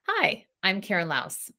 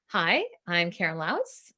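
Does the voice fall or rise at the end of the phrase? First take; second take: fall; rise. First: The pitch falls at the end like a statement. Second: The pitch rises at the end like a question. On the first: The speaker sounds confident. The speaker calls it right. "Versus option two" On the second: The speaker sounds unsure of herself. The speaker calls it wrong. "upspeak or uptalk, that slang terminology for when we say a statement with a question instead"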